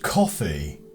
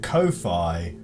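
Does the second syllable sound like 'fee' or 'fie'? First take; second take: fee; fie. First: The word sounds like the drink coffee. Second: The second syllable rhymes with hi-fi. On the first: The speaker calls it right. "it's just pronounced coffee" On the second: The speaker calls it wrong. "I pronounced it Ko-fi because I assumed it was supposed to rhyme with hi-fi"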